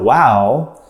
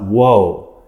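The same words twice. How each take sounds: First: "Wow" said as an amazed wow, open ow sound; the surprised "Wow" with a wide ow vowel; exclaimed wow. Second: "Woe" with a long oh vowel, like a lament; the mournful "Woe", rounded oh sound. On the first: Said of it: "not W O A H". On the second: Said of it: "but W O E". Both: Shown as a demonstration.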